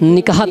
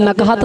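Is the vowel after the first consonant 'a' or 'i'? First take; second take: i; a. First: The first syllable has the vowel 'i'. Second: The first syllable has the vowel 'a'. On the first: The speaker calls it wrong. "ये लफ्ज़ नकहत नहीं लफ्ज़ निकहत है" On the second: The speaker calls it right. "नू पर ज़बर"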